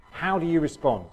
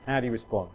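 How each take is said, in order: First: How do YOU respond, with YOU lifted higher; stress on you. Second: HOW do you respond, with HOW leading and the rest dropping; stress on how. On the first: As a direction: lean on the word you as a pointed question. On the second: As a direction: open with a weighted HOW, then fall away. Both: Shown as a demonstration. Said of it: "I fessed up. How do you respond?".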